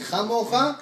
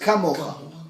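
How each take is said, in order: First: The word begins with a soft, breathy ch sound. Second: The word begins with a hard, strong k sound. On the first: It is said without energy. "he didn't have the energy to say ka. So he said chamocha" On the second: It is said with a lot of energy. "The nation of Israel had a lot of energy"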